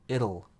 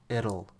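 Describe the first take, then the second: Both takes have the same delivery.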